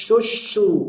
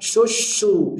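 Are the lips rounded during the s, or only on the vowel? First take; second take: during s; during s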